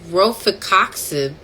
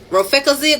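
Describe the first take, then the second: First: The x is said as a ks sound. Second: The x is said as a z sound.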